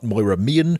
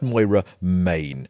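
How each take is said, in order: First: The surname sounds like the word mean. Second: The surname sounds like the word main. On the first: The speaker calls it wrong. "Not Moira Mean" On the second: The speaker calls it right. "but Moira Main"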